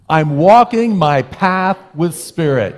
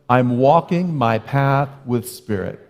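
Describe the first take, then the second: First: It is said with emphatic, exclaiming energy. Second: It is said in a plain, calm way.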